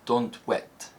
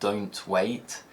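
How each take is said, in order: First: It is said in a Scottish accent. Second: It is said in a standard British accent. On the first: "in Scotland is likely to be pronounced" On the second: "a phrase like"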